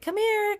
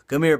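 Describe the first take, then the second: First: It is said in a high-pitched voice. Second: It is said in a low-pitched voice. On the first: "in a high pitched voice" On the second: "I have to go lower and, and dip down"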